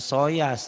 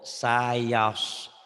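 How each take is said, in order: First: The first vowel sounds like 'o'. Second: The first vowel sounds like 'a'. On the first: The speaker calls it wrong. "Jangan jangan soyas ya. Sa. Jangan ke o" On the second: The speaker calls it right. "Sa. Jangan ke o"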